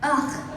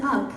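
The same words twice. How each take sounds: First: "Ugh" as a throaty disgusted noise; corrected pronunciation. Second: "ugh" said with a hard g, like "ug"; quoted mispronunciation. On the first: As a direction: give "Ugh" properly, no hard g. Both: Retold or imitated. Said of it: "He was like".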